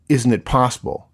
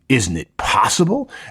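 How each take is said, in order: First: It is asked in a plain, neutral tone. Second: It is asked in a heavily sarcastic tone. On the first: It is a genuine, open question. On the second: It is an attack meant to provoke emotion.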